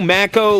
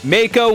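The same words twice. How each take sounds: First: The first vowel is a short A sound. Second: The first vowel is a long A sound. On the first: "short A" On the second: "long A"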